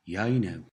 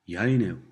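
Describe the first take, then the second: Both takes have the same delivery.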